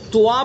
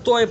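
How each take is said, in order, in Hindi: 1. t के बाद 'oo' से 'aa' में बदलता है। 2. t के बाद 'oy' द्विस्वर आता है। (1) "वाव के साथ ... गलत" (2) "तोय भी गलत"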